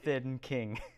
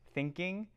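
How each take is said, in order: First: It splits into two separate words. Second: It runs together as a single word. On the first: It means a king who is thin. "like a thin king" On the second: It means the act of thinking. "pronounce that like thinking"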